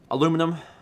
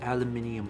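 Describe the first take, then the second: First: The word is said with four syllables. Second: The word is said with five syllables. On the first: "I don't say aluminium" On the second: "in the British English actually has an extra I in it"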